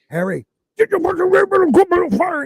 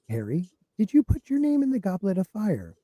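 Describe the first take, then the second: First: It is said in an agitated, forceful way. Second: It is said in a calm, soothing way.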